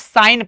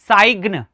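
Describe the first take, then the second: First: No g sound is heard before the n. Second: A g sound is heard before the n. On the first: The speaker calls it right. "जी silent हो जाएगा" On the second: The speaker calls it wrong. "ये क्या हो जाएगा? Wrong"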